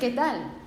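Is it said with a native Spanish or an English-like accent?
native Spanish. It is said with a native Spanish accent.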